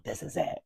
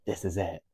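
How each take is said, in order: First: Excited. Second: Said in the usual way. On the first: Retold or imitated. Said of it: "I was like". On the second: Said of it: "being like".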